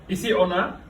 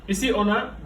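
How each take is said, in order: No difference in how they are said.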